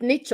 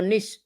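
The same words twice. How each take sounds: First: "niche" said as "neetch", ending in tch. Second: "niche" said as "neesh", ending in sh. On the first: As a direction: pronounce "niche" to rhyme with "beach". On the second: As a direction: pronounce "niche" to rhyme with "leash". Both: Shown as a demonstration. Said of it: "Is it niche or niche?".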